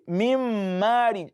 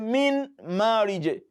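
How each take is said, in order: First: The n blends into the following m sound. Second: The n is pronounced clearly before the m. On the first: The speaker calls it right. "in the Quran says mim marij" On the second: The speaker calls it wrong. "You don't say min marij, no"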